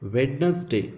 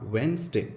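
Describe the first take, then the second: First: The middle d is pronounced. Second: The middle d is left out. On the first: The speaker calls it wrong. "ವೆಡ್ನಸ್ಡೇ ಅಂತ ಬರೆದಿರೋದು" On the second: The speaker calls it right. "ಓದುವಾಗ ವೆನ್ಸ್ಡೇ ಅಂತ ಓದಬೇಕು"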